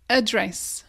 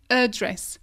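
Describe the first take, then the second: No difference in how they are said.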